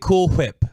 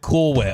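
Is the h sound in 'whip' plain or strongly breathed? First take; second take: strongly breathed; plain. First: The h in whip is strongly breathed out. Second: The h in whip is plain and unstressed. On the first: "you're saying Cool Whip" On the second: "instead of Cool Whip"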